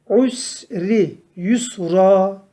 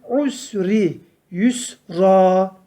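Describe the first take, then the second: The two takes are said the same way.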